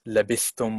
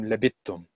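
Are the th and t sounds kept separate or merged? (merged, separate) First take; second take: separate; merged. First: The th and t sounds are kept separate. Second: The th sound merges into a doubled t.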